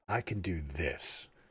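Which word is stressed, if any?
this. The word "this" is stressed.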